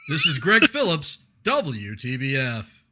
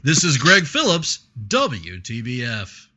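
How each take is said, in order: First: Reporter sign-off breaking into a laugh; radio reporter voice, laughing. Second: Slow, punchy sign-off; radio reporter voice. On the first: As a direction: try the station sign-off but crack up. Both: Shown as a demonstration. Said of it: "that was my reporter voice".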